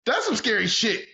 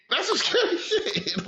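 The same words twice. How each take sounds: First: Excited alarm. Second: That's some scary shit laughed out high and slow; high, slow laughing repeat. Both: Real, not acted.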